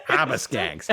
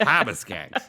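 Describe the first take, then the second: First: Said in the usual way. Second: Harbor Skanks with a dropped r, hahbuh; Boston accent. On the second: Shown as a demonstration. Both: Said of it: "I meant to do a Boston accent".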